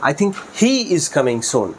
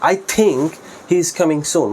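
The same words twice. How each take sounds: First: The word he gets the stress. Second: The word think gets the stress. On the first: This particular person, among many, is coming. "হি এর উপর stress দেই" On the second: It is only a belief that he is coming. "এই থিঙ্কের উপর একটু intonation স্ট্রেসটা বেশি দেয়"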